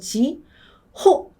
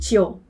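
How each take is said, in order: First: Said slowly, syllable by syllable, with a clear h. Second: Said quickly and relaxed, with the h dropped. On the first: "천천히 읽으면 지, 호 이렇게 한 음절씩 읽으면 두 번째 음절에도 강세가 들어가요" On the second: "힘을 빼고 지오, 지오 이렇게 하니까 마치 H가 없는 것처럼 들려서"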